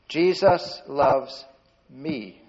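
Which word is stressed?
me. The stress falls on the word me. The love is aimed at the speaker personally. "point to yourself if you can"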